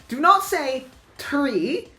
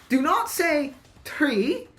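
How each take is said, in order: No difference in how they are said.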